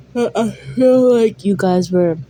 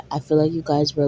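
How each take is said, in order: First: Talking through a yawn; words stretched by a real yawn. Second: Said in the usual way. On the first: Real, not acted. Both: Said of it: "just by my yawn".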